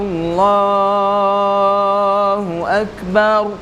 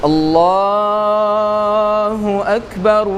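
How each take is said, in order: No difference in how they are said.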